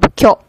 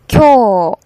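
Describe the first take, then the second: First: The final vowel is cut short. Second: The final vowel is held long. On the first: The speaker calls it wrong. "instead of" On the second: The speaker calls it right. "This OO is the long vowel, so pronounce as"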